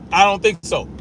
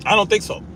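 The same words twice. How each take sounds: First: "I" pushed out first and strongest, then a falling finish; dismissive, with the weight on "I"; stress on I. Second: Dismissive, with the weight on "think"; stress on think. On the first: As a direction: lean on the word "I" in "I don't think so". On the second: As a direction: repeat it, this time pressing "think" in "I don't think so". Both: Real, not acted.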